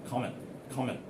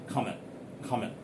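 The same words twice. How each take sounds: The two takes are said the same way.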